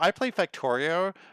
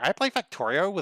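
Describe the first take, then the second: First: It is said in his normal voice. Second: It is said in a put-on nerd voice.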